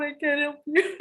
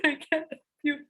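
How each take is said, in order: First: Said in the usual way. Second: Laughing through the words. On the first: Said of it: "I'm like". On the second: Retold or imitated. Mom to daughter on the toilet, laughing refusal. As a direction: giggle while refusing. Retelling her funny refusal.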